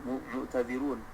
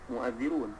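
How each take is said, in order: First: A separate t sound comes before the dh. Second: The t sound merges into a doubled dh. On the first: "ta ni muta'adzirun, mu'tadzirun" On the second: "maka diidghamkan padanya, maka jadilah mu'adzirun"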